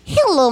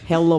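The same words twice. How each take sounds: First: It is said in a put-on female voice. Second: It is said in a put-on male voice. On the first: "that was still lady" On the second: "There's a man Russian accent"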